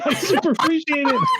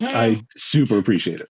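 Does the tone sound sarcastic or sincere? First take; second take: sincere; sarcastic. First: The tone sounds sincere. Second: The tone sounds sarcastic. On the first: The speaker calls it right. "It wasn't meant to be" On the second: The speaker calls it wrong. "That sounded sarcastic"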